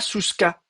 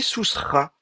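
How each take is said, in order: First: The last consonant is a hard k. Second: The last consonant is a breathy kh. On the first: The speaker calls it wrong. "on dit pas souska" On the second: The speaker calls it right. "on dit sousra"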